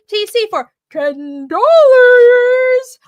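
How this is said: It is read in a put-on super chat voice.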